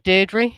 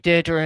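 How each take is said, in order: First: The name is said with a British pronunciation. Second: The name is said with an American pronunciation. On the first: "We say Deirdre" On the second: "You say Deirdre in America"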